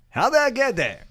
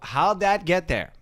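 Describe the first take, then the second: First: It is said in a big announcer voice. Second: It is said in an ordinary speaking voice.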